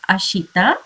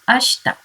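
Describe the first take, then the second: First: The vowel after 'sh' is clearly pronounced. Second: The vowel after 'sh' is dropped. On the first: The speaker calls it wrong. "It is not ashita" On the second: The speaker calls it right. "You have to pronounce it as ashta"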